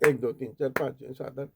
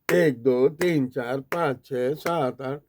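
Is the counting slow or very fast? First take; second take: very fast; slow. First: It is counted very fast, several numbers per second. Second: It is counted slowly, one number per second.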